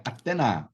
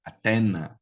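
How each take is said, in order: First: Teacher repeats the student's mistake, stressing the end; wrong final stress. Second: Teacher confirms the corrected word, weight on TE; correct middle-syllable stress. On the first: Say "Atena" with the weight on NA. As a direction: stress the last syllable of "Atena", ate-NA. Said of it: "não é Atena. Veja bem, ó o sinalzinho". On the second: Say "Atena" with NA falling away. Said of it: "Veja bem, ó o sinalzinho aqui". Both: Shown as a demonstration.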